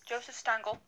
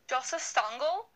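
First: The name is said in the speaker's plain accent. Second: The name is said in a put-on German accent.

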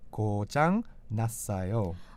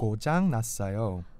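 First: It is said more slowly. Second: It is said at normal speed.

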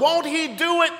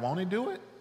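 First: It is a confident exclamation, falling at the end. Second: It is a doubtful question, rising at the end.

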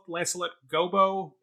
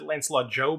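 First: The surname begins with a hard G sound. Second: The surname begins with a J sound. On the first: "who I've always called Lancelot Gobbo" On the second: "They pronounced it Lancelot Jobe in this production"

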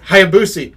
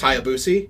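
First: The name is said in its ordinary pronunciation. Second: The name is said in an imitated, quirky pronunciation. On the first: It is the standard way to say the name. "say it right" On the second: It copies another person's odd pronunciation. "Terry Funk will forever have my favorite way of pronouncing Hayabusa"

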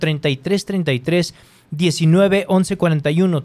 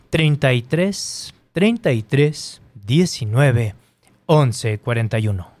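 First: The number is said fast. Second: The number is said slowly.

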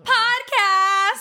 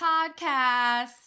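First: It is said loudly, with enthusiasm. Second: It is said flatly, without enthusiasm.

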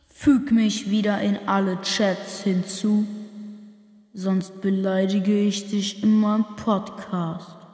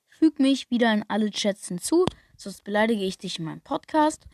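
First: The voice has an added echo effect. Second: The voice sounds plain with no echo. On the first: "ein Echotext" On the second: "im Klartext"

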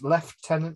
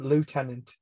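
First: The first syllable sounds like 'lef'. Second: The first syllable sounds like 'loo'. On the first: This is how people say it over here. "over here it's Lieutenant. That's how you say it" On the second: This is how the character in the film says it. "he calls him Lieutenant"

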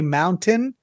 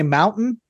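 First: The T in the middle is clearly pronounced. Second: The T in the middle is dropped.

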